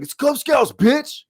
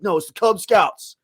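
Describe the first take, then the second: First: Mock yell. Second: Raised pitch, firm and serious; stern but restrained. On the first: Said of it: "it sounded like he wanted to be like". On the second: Retold or imitated. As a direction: say it seriously, holding back the insult. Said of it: "But he was like".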